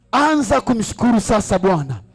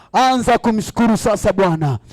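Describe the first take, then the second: Both takes have the same delivery.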